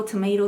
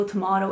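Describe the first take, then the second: First: "tomato" with a long AY, to-MAY-to. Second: "tomato" with a broad AH, to-MAH-to. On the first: Waving off brand names to viewers, "tomato" said to-MAY-to. First of two contrasting pronunciations. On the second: Waving off brand names to viewers, "tomato" said to-MAH-to. Second of two contrasting pronunciations. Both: Shown as a demonstration.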